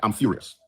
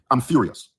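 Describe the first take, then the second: First: Said in the usual way. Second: Mild real anger. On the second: Real, not acted.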